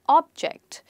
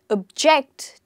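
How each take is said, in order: First: The stress is on the first syllable. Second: The stress is on the second syllable. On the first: It names a thing you can see or touch. "I pronounced them differently because of word stress" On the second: It means to disagree with something. "So the stress here is on the second syllable"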